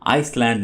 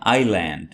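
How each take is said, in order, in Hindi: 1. इस शब्द में s की आवाज़ है। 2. इस शब्द में s की आवाज़ नहीं है।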